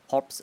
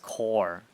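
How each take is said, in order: First: The word ends with a spoken p-s sound. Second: The word ends without any p-s sound. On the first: The speaker calls it wrong. "You don't pronounce it corpse" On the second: The speaker calls it right. "It's core, even though it's with a P"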